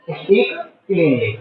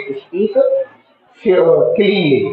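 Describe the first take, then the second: First: Said in the usual way. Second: cleanly said very slowly, every syllable drawn out; teacher modelling cleanly slowly for students; slow careful model word. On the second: Shown as a demonstration. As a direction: spell out cleanly slowly for the class to copy. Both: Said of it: "क्या बोलेंगे?".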